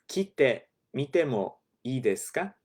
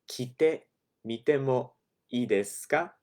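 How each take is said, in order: The two takes are said the same way.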